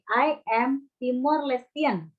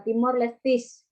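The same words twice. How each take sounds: First: Slow model reading of "Lestian"; measured, easy "Lestian"; -ian ending. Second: "Lestis" ending in a hissed -is; awkward example "Lestis". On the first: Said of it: "Tapi kalau ketika kita bilang". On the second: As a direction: say "Lestis" with an S at the end. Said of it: "Enak nggak dibaca?". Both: Shown as a demonstration.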